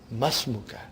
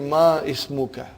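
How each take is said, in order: First: The i of ismuka is dropped, merging into ma. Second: The i of ismuka is sounded separately after ma. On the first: The speaker calls it right. "You should say masmuka, huh? Because hamzatul wasal" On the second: The speaker calls it wrong. "It will be incorrect to say ma ismuka"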